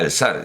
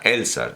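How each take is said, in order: First: The stress falls on the last syllable. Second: The stress falls on the first syllable. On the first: "lo más parecido a Elzar" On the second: "la acentuación es llana"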